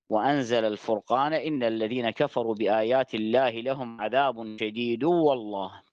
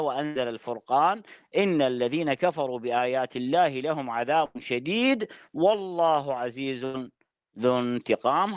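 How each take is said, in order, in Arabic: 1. تتوقف التلاوة مباشرة بعد 'wallah'. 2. تستمر التلاوة بعد 'wallah' دون توقف. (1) "الوقف على كلمة والله" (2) "مراد الآية"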